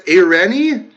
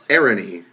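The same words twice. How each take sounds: First: "Irene" said with stress on a middle "REN", ending in "ee"; attempted name pronunciation. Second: "Irene" said lower, stressed on the first syllable, "AIR-uh-nee"; second pronunciation attempt. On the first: Creator trying a viewer's name, "Irene" as ih-REN-ee. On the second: Creator correcting a viewer's name, "Irene" as AIR-uh-nee. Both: Real, not acted. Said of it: "I try to say these names".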